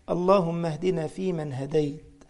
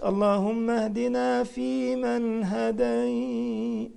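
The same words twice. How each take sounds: First: It is spoken plainly in an ordinary voice. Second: It is intoned melodically like recitation. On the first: It is an ordinary supplication. The speaker calls it right. "هكذا" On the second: It sounds like reciting scripture. The speaker calls it wrong. "مش ... دي مش قرآن"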